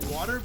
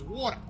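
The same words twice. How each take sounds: First: It is said in a plain, non-Australian accent. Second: It is said in an Australian accent.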